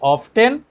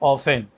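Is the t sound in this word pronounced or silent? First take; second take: pronounced; silent. First: The t sound in the middle is pronounced. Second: The t sound in the middle is silent. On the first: "ऑफ्टेन भी सही है" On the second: "ऑफेन भी सही है"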